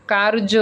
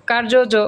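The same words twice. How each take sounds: First: কার্য said as kar-jo, J sounded once; single J. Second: কার্য জ said as kar-jo-jo; কার্য জ with an extra jo tacked on; wrongly doubled J. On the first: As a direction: clear কার্য with one final jo. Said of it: "দুইবার উচ্চারণ করা হবে না". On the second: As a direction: repeat the final jo in কার্য জ. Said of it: "এরকম বলি আমরা?". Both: Shown as a demonstration.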